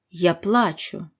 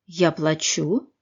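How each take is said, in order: First: The ending is reduced as much as possible. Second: The ending is said fully, not reduced.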